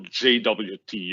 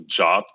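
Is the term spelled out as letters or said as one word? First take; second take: letters; one word. First: It is spelled out as three separate letters. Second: It is said as one short word, jot. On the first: "something called a J W T" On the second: "people pronounce it as a J O T"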